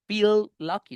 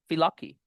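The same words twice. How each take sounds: First: Both L sounds are pronounced separately. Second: The two L sounds merge into one. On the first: The speaker calls it wrong. "no voy a decir feel lucky, feel lucky, no voy a decir l, l" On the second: The speaker calls it right. "solo una"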